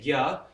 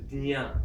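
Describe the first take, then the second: First: It is said as g followed by ya. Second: It is said as d followed by nya. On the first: "in Hindi we say gya" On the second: "with a D, the nya sound"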